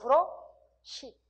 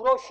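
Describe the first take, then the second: First: The last syllable is said as 'si'. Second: The last syllable is said as 'shwi'. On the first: The speaker calls it right. "어말에는 시" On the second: The speaker calls it wrong. "브러쉬 아니고"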